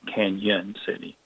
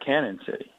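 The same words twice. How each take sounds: First: The first word has an ny sound. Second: The first word has a plain n sound. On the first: The name is read with the tilde. The speaker calls it right. "it should have the tilde over the end to make that the Spanish Y sound" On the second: The name is read without the tilde. The speaker calls it wrong. "You don't put the tilde over the end, it looks like"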